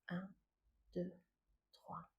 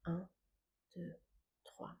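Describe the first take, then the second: No difference in how they are said.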